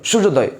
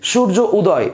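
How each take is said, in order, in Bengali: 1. একবারে, এক টানে সহজভাবে বলা হচ্ছে। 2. দুই ভাগে ভাগ হয়ে, মাঝে একটু থেমে বলা হচ্ছে। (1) "সহজ লাগছে" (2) "দুইবার লাগছে"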